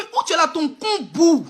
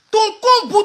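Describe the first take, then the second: First: Said in the usual way. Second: Louder repeat. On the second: Real, not acted. Insult repeated for emphasis.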